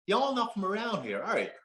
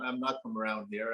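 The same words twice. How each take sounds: First: Attempted Southern accent. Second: Said in the usual way. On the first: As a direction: put on an amateur Southern US accent. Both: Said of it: "attempt at my best Southern accent".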